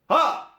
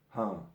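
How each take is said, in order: First: The shout is very loud and intense. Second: The shout is quiet and held back. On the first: "because it's too loud, it's too intense" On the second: "because the sound is suppressed"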